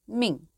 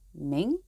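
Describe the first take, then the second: First: The pitch falls sharply across the word. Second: The pitch rises across the word. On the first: It means an order or command. "Tone 4" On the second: It names the dynasty. "the famous Ming dynasty is tone 2"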